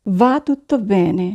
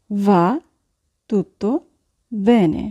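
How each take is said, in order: First: Said in the usual way. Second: "va", "tutto", "bene" each set apart by long pauses; slow dictation with pauses; word by word. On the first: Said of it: "teacher models phrase". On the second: Shown as a demonstration. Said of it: "teacher repeats word by word".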